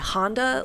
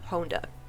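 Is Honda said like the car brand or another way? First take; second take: car brand; another way. First: It sounds like the car brand name. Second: It sounds unlike the car brand name. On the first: The speaker calls it wrong. "they say Honda, like the car" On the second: The speaker calls it right. "the proper pronunciation is Toru Honda"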